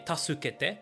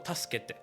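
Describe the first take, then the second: First: The u after s is fully pronounced. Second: The u after s is dropped. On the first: The speaker calls it wrong. "nie tasukete" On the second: The speaker calls it right. "tylko taskete"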